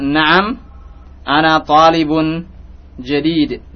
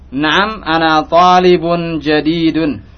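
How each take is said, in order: First: The final case vowels are dropped. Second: The final case vowels are pronounced. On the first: This is how it is said in ordinary speech. "ketika antum berbicara seperti ini maka huruf terakhir tidak dibaca" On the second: This is for practising the endings. "Tapi kita beri harokat"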